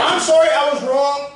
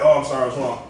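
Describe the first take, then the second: First: The apology sounds genuine and sincere. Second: The apology sounds dismissive and insincere.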